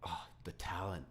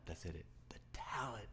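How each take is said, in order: First: Said in the usual way. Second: Whisper. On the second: Real, not acted. Repeated in whisper.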